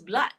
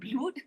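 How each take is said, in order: First: The vowel is a short 'uh' sound. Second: The vowel is a different, 'oo'-like sound. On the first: The speaker calls it right. "The word is blood" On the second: The speaker calls it wrong. "not blood"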